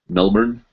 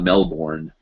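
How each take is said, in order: First: The last syllable is short and reduced. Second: The last syllable is a full 'born'.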